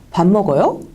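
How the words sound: The pitch rises on the final syllable. It is a question. "이렇게 올리죠"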